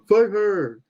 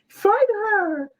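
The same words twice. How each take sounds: First: The voice is put on noticeably deeper. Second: The voice is at its ordinary, higher pitch. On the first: The speaker calls it right. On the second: The speaker calls it wrong.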